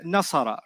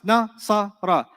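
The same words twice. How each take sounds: First: Said in the usual way. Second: "Nasara" slowly broken into three separate sounds; syllable by syllable. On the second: Shown as a demonstration. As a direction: say "Nasara" one syllable at a time, with gaps. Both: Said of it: "Diff-, separate sounds".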